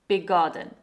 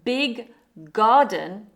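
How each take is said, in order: First: One held G sound joins the two words. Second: Two separate G sounds are pronounced.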